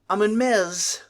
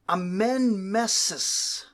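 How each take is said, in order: First: The name ends with a one-syllable 'mez' part. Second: The name ends with a two-syllable 'meses' part. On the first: The speaker calls it wrong. "is just sloppy" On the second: The speaker calls it right. "is a little bit more correct"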